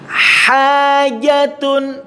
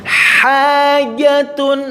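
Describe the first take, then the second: No difference in how they are said.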